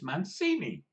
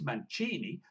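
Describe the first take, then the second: First: The name is said the Hispanic way. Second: The name is said the Italian way. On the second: The bearer is Italian. "if you're an Italian, it's Mancini"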